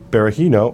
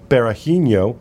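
First: The name is said with plain English pronunciation. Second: The name is said with Brazilian-sounding pronunciation.

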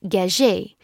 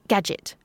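First: The name is said without an American accent. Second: The name is said with an American accent. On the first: This is the maker's own name. "stamped them with his name" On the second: This is the word the name became. "when said with an American accent"

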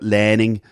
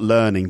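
First: It is said with a Liverpool accent. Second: It is said with a standard accent. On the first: "but learning" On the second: "not learning"

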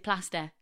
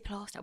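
First: It is said the usual northern way. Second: It is said the posh-sounding South Shields way.

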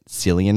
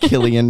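First: The name begins with a soft S sound. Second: The name begins with a hard K sound. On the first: The speaker calls it wrong. "we've both been living our lives pronouncing it" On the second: The speaker calls it right.

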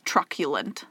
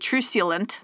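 First: The word rhymes with succulent. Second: The word does not rhyme with succulent. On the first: The speaker calls it right. "But it's truculent, like succulent" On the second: The speaker calls it wrong. "I thought it was going to be truculent because that's what it looks like"

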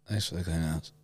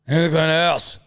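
First: It is said at a quieter volume. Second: It is said at a louder volume.

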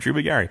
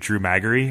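First: The surname is said as McGarry. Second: The surname is said as Maggery. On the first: The speaker calls it right. "And then one day it was like, oh" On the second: The speaker calls it wrong. "I just thought it was like Drew Maggery"

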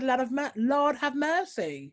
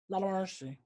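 First: It is said in an ordinary speaking voice. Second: It is said in a very deep voice. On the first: The speaker calls it wrong. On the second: The speaker calls it right.

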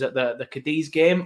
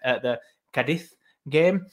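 First: Cadiz does not sound like a quick 'Cardiff'. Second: Cadiz sounds like 'Cardiff' said very fast. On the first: This is the speaker's usual way of saying the name. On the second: This is the pronunciation someone else taught the speaker.

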